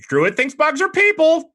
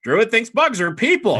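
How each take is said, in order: First: Very high loud squawk with the stress on "are"; squawking bird. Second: Squawking bird. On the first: Baby phoenix squawks at the druid, stress on "are". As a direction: screech it out, leaning on "are". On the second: Baby phoenix repeats its squawk, stress on "bugs". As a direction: repeat the screech, hitting "bugs". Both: Acted. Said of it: "and it goes".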